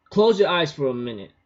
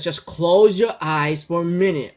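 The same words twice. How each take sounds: First: Said in the usual way. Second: Put-on insistent girl's voice. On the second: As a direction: repeat it more firmly, in her voice. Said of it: "She says".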